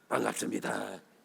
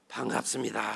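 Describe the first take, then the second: First: It is said carelessly, without any warmth. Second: It is said kindly, with a warm smile.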